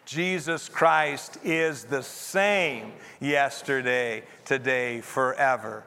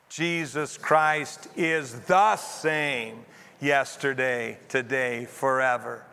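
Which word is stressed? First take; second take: same; the. First: The stress is on the word same. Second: The stress is on the word the.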